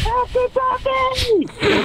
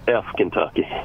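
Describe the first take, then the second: First: It is said very loudly. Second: It is said very quietly.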